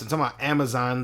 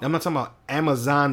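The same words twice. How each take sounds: First: "talking" stressed, "not" gone. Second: "not" punched, rising; stress on NOT. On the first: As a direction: lean on "talking" in "I'm talking about Amazon". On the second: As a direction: hit the word "not" in "I'm not talking about Amazon". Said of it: "I'm talking about Amazon, the forest". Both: Real, not acted.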